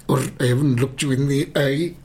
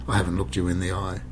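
First: Louder, higher attempt at a Scottish accent. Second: Said in the usual way. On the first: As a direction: have a shaky go at Scottish, raised voice. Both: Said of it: "I can't do a Scottish accent".

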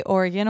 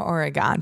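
First: "Oregon" ending in an unstressed "-gun"; Oregon with reduced ending. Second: "Oregon" ending in a full "-gone". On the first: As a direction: say "Oregon" as OR-uh-gun, last vowel swallowed. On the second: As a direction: say "Oregon" as OR-uh-gone, open last vowel. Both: Shown as a demonstration. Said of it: "Do you guys say Oregon or Oregon".

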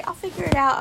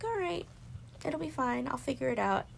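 First: Louder, high mock quote; loud, high parroting of others. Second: High, breezy brush-off; high, breezy self-reassurance; breezy self-assurance. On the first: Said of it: "As soon as they say". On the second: Retold or imitated. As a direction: chirp it off lightly, high. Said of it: "and I'm like".

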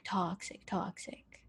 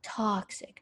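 First: "toxic, toxic" whispered, dying away to nothing; trailing dramatic whisper; fading whisper. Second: Said in the usual way. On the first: Real, not acted. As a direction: drop "toxic" into a whisper and let it vanish.

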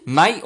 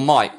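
First: "Mate" with a long AY vowel; standard vowel in mate. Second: "mate" widened to sound like MITE; Aussie vowel in mate. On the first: Checking with an Australian guest, standard mate. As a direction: say "Mate" as MAYT. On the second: Checking with an Australian guest, broad Aussie mate. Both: Shown as a demonstration.

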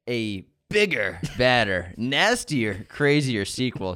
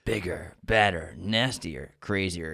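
First: Slow, dramatic trailer narration; movie trailer voice. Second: Deep trailer voice. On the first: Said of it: "I like your trailer voice". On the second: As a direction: growl it like a trailer voice. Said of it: "Oh, hold on". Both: Acted.

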